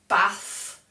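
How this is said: It has a northern English short vowel.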